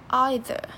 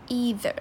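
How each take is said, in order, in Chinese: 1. 这是英式发音。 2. 这是美式发音。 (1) "英式会念either" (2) "美式会念either"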